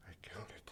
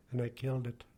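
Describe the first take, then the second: First: Barely voiced, whispered confession; a real whisper of guilt; real broken whisper. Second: Said in the usual way. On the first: Real, not acted. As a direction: let it slip out as a whisper, ashamed. Confessing killing a gosling, breaking down.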